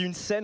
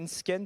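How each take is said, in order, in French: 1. Le mot commence par un son 's' simple. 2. Le mot commence par un son 'sk'. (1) "S C E en français, bah, ça se dit se" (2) "on dit pas une sken"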